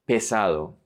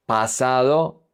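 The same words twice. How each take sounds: First: Pesado opening on "peh"; first vowel E. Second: Pasado opening on "pah"; clear first A. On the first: Teacher contrasting heavy with past, pesado with E. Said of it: "pesado with E". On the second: Teacher contrasting past with heavy, Pasado with A. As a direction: keep the first vowel of Pasado a full ah. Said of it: "with E instead of A". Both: Shown as a demonstration.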